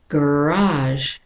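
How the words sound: It is said with an American pronunciation. "And the American is garage"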